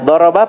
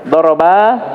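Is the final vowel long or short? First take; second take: short; long. First: The final vowel is said short. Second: The final vowel is said long. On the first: One man has hit. "Daraba pendek" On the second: Two men have hit. "saya baca panjang sedikit saja"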